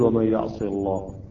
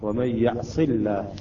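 First: The L in Allah is heavy and full. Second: The L in Allah is light and thin. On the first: The speaker calls it wrong. "لا نقول" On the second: The speaker calls it right. "صاد هنا مكسورة قبل اللام"

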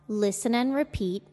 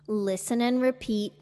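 No difference in how they are said.

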